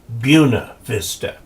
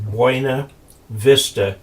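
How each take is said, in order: First: The name is said the local way. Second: The name is said the usual way. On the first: This is how the local people say it. "and they call it Buena Vista" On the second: This is how the spelling would normally be read. "a place in Colorado that is spelled Buena Vista"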